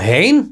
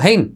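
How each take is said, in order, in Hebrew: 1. היא נאמרת כשאלה נדהמת וחסרת אמון. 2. היא נאמרת בפשטות, כהצהרה רגילה.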